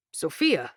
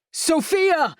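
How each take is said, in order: First: Said in the usual way. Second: High sudden startled call; startled outcry. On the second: Acted. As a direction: blurt the name in alarm. Sudden alarmed call mid-sentence.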